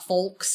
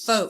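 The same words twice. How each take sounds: First: The L sound is pronounced in the word. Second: The L sound is left silent in the word. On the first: The speaker calls it wrong. "Not folks" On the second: The speaker calls it right. "You don't pronounce the L"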